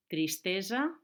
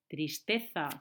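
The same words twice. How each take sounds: First: Tristesa amb S sorda, com en valencià; Valencian tristesa. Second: Tristeza con Z interdental, zeta castellana; Castilian tristeza. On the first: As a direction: pronuncia Tristesa amb una S suau. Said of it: "Solo cambia". (Tristesa amb essa valenciana) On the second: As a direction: di tristeza con la lengua entre los dientes. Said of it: "que en castellano es una Z". (tristeza amb la zeta castellana) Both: Shown as a demonstration.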